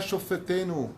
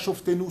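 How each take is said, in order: First: A short vowel is heard between 'shof' and 'tenu'. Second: No vowel is heard between 'shof' and 'tenu'. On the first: It asks for our judges. The speaker calls it right. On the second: It asks for judgment rather than judges. The speaker calls it wrong.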